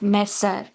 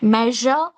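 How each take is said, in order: First: The middle consonant is not a 'zh' sound. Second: The middle consonant is a buzzing 'zh' sound. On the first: The speaker calls it wrong. "it's not measure" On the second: The speaker calls it right. "sh, sh sound"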